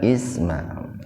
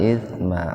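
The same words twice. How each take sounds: First: The consonant is a plain hissing s. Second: The consonant is a th with tongue between teeth. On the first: It means name. The speaker calls it wrong. "Jangan isma. Kalau isma menjadi nama artinya itu" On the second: It means sin. The speaker calls it right. "Jadi ujung lidahnya digigit"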